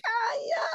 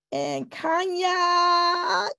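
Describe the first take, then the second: First: Higher, quick repeat of the name; a quick high second call; bright call. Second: Slow, stretched calling of the name; slow sing-song call; drawn-out call. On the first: Host calling again. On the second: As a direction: stretch the name out, summoning her. Host calling the next speaker. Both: Real, not acted.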